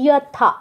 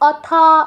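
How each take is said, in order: First: The word begins with a clear 'y' sound. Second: The word begins with a bare vowel sound. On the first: The speaker calls it right. "ইয়, यथा" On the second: The speaker calls it wrong. "অথা বলবেন না"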